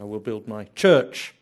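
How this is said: The stress falls on the word church. The focus is on the church being built. The speaker calls it wrong. "the emphasis is on church"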